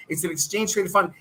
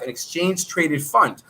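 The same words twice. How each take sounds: First: Said in the usual way. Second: Exchange traded fund said slowly, word by word; slowed down. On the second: Shown as a demonstration. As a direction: spell it out slowly for beginners. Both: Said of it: "I'll slow it down".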